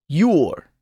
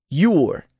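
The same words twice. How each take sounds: No difference in how they are said.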